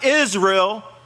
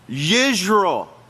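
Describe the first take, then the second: First: The name starts with a plain vowel sound. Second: The name starts with a 'y' sound. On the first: The speaker calls it wrong. "Not Israel" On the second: The speaker calls it right. "let's pronounce this right"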